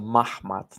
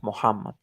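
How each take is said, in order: First: The name is said as Mahmad, two syllables. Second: The name is said as Muhammad, three syllables. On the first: This is the form early outside sources point to. "He he was pronounced as a Mahmad" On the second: This is the usual Arabic form of the name. "not not Muhammad"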